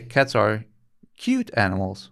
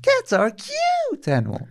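First: It is said plainly, without extra emphasis. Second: It is said with strong, amplified emphasis.

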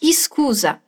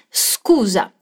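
First: A vowel sound is added before the S. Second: The word starts directly with the S sound. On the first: The speaker calls it wrong. "Não é scusa" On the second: The speaker calls it right. "mas scusa"

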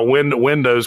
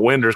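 First: The word ends clearly in 'dows', carefully enunciated. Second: The word ends in 'ders', in a Southern drawl. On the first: The speaker sounds like city people. "because I'm enunciating" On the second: The speaker sounds like a local from home. "instead of a Winders computer"

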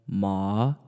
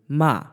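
First: The pitch dips low and rises slightly. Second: The pitch falls sharply from high to low. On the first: "And then third tone" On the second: "the fourth tone basically goes from high to low"

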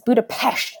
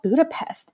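First: The last syllable ends with an 'sh' sound. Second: The last syllable ends with a plain 's' sound. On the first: The speaker calls it right. "It's Budapest. / It's Pesht, right?" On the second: The speaker calls it wrong. "it's not Budapest"

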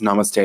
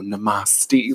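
First: It is pronounced the usual, standard way. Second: It is pronounced in a mock, joking way. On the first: It is a sincere closing greeting. "when the instructor goes" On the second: It is meant to tease and be obnoxious. "they pronounced it namaste. Like, it was, like, for fun"

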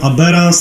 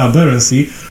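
First: The stress is on a later syllable. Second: The stress is on the first syllable. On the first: The speaker calls it wrong. "a ludzie mówią Aberrans" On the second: The speaker calls it right. "akcent powinien być na pierwsze Aberrancy"

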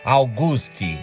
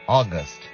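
First: The word ends with an added 'ee' vowel. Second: The word ends on the 't' consonant. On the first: The speaker calls it wrong. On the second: The speaker calls it right.

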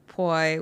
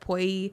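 First: The vowel drops and relaxes toward an e sound. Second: The vowel glides up high to an i sound. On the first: The speaker calls it wrong. "versus poi, which you can just almost like let it drop" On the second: The speaker calls it right. "Because you have to like force it up. Poi. It goes to the top of your mouth"

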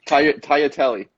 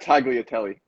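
First: The G sound is silent. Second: The G sound is pronounced. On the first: The speaker calls it right. "So the G is silent" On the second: The speaker calls it wrong. "It's not tagliatelle"

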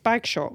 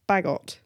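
First: It is said as bag-shot, with an sh sound. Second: It is said as badge-it, with a j sound. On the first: This is how the spelling looks at a quick read. The speaker calls it wrong. "if I for quickly read it, is Bagshot" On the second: This is how the name is actually said. The speaker calls it right. "but it's not Bagshot, is it? It's Bagot"

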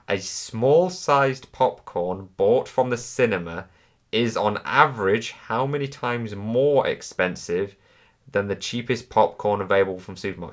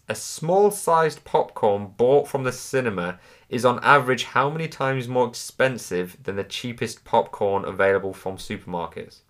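First: It is read at a slower pace. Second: It is read at a faster pace.

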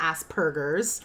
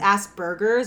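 First: The middle consonant is a P sound. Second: The middle consonant is a B sound. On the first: The speaker calls it wrong. "It's not Asperger's" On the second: The speaker calls it right. "it's Asperger's with a B"

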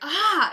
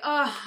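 First: It sounds like a surprised discovery. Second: It sounds like relaxed, happy contentment.

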